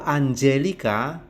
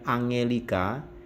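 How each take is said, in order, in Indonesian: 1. G-nya lunak, seperti bunyi j. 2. G-nya keras, seperti pada kata go. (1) "G diikuti vokal E, I dan Y, maka dibaca J" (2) "bukan Angelica"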